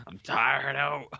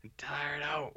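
First: Slow, laughing and sleepy. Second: Unvoiced, worn-out whisper; Nick Nolte voice. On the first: Real, not acted. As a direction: drag it out through a laugh. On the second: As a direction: rasp it out like a spent old actor. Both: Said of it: "It's Nick Nolte over here".

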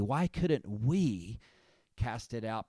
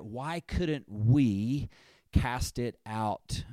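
First: Slow "Why couldn't we", weight on "we"; stress on we. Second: Slow, drawn-out "Why couldn't we cast it out?"; stress on we. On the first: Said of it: "I want to put the emphasis on the word "we". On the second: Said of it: "you could underline the word "we". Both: Shown as a demonstration.

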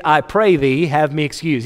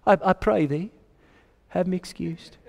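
First: Said in the usual way. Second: Soft, polite British delivery; British accent. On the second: Acted. Preacher voicing the guest's polite excuse, in a British accent. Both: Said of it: "I don't know why I went British on that".

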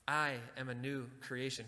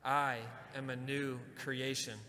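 First: Said in the usual way. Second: Slow, deliberate declaration with the congregation; slow it down so all can follow; slow affirmation. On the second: Shown as a demonstration. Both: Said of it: "Can you say that with me?".

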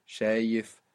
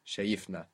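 First: Shayif stressed on SHA, light ending; stress on penultimate syllable. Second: Shayifna low and soft, stressed on YIF; stress on penultimate syllable. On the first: Teacher repeating the contrast, stress on SHA in Shayif. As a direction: put the weight on the opening syllable of Shayif. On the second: Teacher repeating the moved accent, soft stress on YIF in shayifna. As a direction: softly shift the weight to YIF in shayifna. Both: Shown as a demonstration. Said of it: "on the second last syllable".

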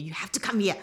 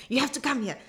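First: Said in the usual way. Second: Urging "You have to come here" in a whisper; coaxing whisper. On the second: Retold or imitated. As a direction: whisper the plea like a secret. Repeats friend's urging, whispered.

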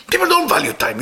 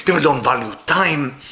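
First: "don't" lifted much higher with a falling tune; emphatic repeat. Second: Said in the usual way. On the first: Shown as a demonstration. Preacher repeats to the congregation, stressing "don't". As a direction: land hard on "don't" to drive the point home. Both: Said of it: "repeated for emphasis".

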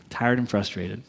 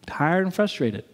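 First: Low, subdued admission; weary, low answer to own question; deflated. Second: Slow, measured "Tired and frustrated"; "Tired and frustrated" drawn out deliberately; emphatic repeat. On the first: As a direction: drop the pitch way down, deflated. Deflated answer, then repeated. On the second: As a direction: spell out "Tired and frustrated" slowly for weight. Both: Real, not acted.

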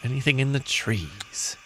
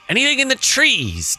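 First: Quiet, trailing plea; soft repeat. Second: High appeal. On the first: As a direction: ask it under your voice. Repeats the appeal more softly. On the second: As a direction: ask hopefully, pitched well up. Player playfully appeals to game master. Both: Acted.

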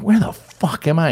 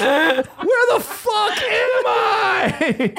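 First: Raised pitch, mild comic bewilderment; bewildered. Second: Very high, stretched-out mock cry; panicked wail. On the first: Acted. Newcomer landing in the desert, mildly bewildered. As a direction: ask it as if lost on Mars. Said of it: "you're like". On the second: Newcomer lost among camels, hammed-up panicked wail. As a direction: wail each word slowly in falsetto.

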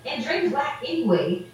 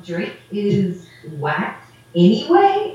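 First: Flat put-down, falling at the end; dismissive retort. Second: Slow, disbelieving question rising on "anyway"; puzzled echo. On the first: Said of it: "I was like". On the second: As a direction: repeat it back as if he can't compute it. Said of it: "he was like". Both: Retold or imitated.

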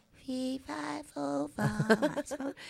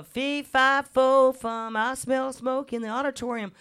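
First: Put-on tiny, high, soft child's voice; shy little girl on stage, high and much softer. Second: Recited rhyme. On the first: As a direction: squeak it out like a timid little girl. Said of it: "my little voice goes". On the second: Retold or imitated. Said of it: "so I'd learned".

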